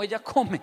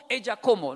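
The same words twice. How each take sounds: First: "ella come" set right, falling on ella, laughing; correct form with a laugh. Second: "ella como" said as a proud learner's error, louder; confidently misuse "ella como"; wrong conjugation. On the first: Shown as a demonstration. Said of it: "No, ella no como, ella come". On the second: Retold or imitated. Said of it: "No, ella no como".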